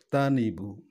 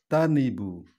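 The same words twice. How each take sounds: The two takes are said the same way.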